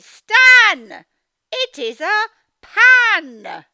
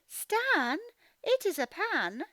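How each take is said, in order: First: It is said excitedly, like an exclamation. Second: It is said flatly, without excitement.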